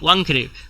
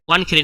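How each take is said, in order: First: An ng sound comes before 'khede'. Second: A plain n sound comes before 'khede'. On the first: The speaker calls it right. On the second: The speaker calls it wrong. "ওয়ানখেড়ে নয়"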